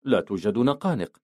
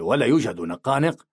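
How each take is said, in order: First: Falling close on نقانق; agreeing. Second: Rising question on نقانق. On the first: Narrator answers Brutal's question, quietly agreeing. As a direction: let نقانق fall, confirming it. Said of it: "رددت موافقا". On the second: Brutal checks the lunch contents with his friends, questioning. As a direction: lift نقانق at the end, asking. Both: A narrator's reading.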